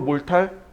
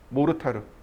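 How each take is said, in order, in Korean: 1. 이 단어는 두 음절로 발음되고, 끝에 ㄹ 소리가 있어요. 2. 이 단어는 네 음절로 발음되고, 끝에 ㄹ 소리가 없어요. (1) "영어로 몰탈" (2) "일본말로 모르타르"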